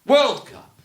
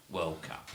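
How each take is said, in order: First: World Cup with a loud, high punch on World; stress on World. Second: World Cup said quietly with the weight on Cup; stress on Cup. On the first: Retold or imitated. Mocking how Americans say it, stress on World. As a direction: hit World hard, like the Americans say it. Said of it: "stressed the first word". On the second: Shown as a demonstration. Explaining the right stress to the podcast hosts, stress on Cup. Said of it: "managed to mispronounce a two-word phrase".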